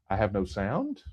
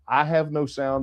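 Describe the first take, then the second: First: It is said as a question, rising. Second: It is said as a statement, falling.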